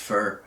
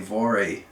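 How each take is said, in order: First: It is said the German way. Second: It is said the common North American way. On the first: "my German friends and others say it's supposed to be pronounced Fur" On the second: "most people say Vore"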